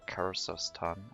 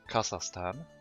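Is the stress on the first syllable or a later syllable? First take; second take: later; first. First: The stress is on a later syllable. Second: The stress is on the first syllable.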